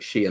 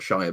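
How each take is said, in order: First: The ending sounds like the word 'sheer'. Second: The ending sounds like 'shy-er', rhyming with fire. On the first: The speaker calls it right. "You say it like Shire, ... like you were shearing sheep" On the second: The speaker calls it wrong. "not Shire"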